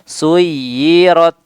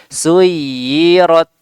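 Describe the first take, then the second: The two takes are said the same way.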